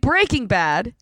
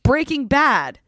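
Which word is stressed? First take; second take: Breaking; Bad. First: The stress falls on the word Breaking. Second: The stress falls on the word Bad. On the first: The speaker calls it wrong. "You're saying Breaking Bad" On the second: The speaker calls it right. "It's Breaking Bad. So bad is the key word"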